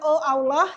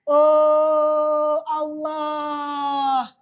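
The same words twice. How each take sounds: First: The opening 'oh' is short and clipped. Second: The opening 'oh' is drawn out long. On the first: The speaker calls it wrong. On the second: The speaker calls it right.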